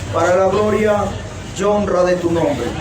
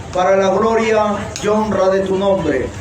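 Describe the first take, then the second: No difference in how they are said.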